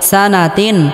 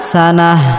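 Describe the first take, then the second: First: The word ends with a t and n sound. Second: The word ends with a silent-stopped h sound. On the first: The reading continues without stopping. "তা দুই জের তিন" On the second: The reader stops at this word. "এখানে ওয়াকফ করলে বা থামলে গোলতা হা হয়ে যাবে"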